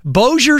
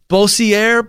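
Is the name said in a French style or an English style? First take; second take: English; French. First: The name is said with a plain English-style pronunciation. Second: The name is said with a French-style pronunciation. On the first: The speaker calls it right. "That's how you pronounce it" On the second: The speaker calls it wrong. "I tried to get cute with the old French thing"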